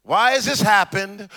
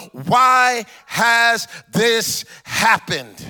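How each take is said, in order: First: Said in the usual way. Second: Each word stretched slowly; slow pleading question; drawn-out plea. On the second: Acted. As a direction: drag out the why like a lament. Gideon's anguished question, drawn out.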